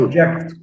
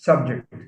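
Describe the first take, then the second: First: The stress is on the second syllable. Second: The stress is on the first syllable. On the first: It is a verb meaning to make someone undergo something. "What happens if we shift stress to the second syllable? Becomes a verb" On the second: It is a noun meaning a topic.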